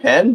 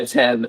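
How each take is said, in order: First: It is said hesitantly, like a doubtful question. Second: It is said confidently, as a plain statement.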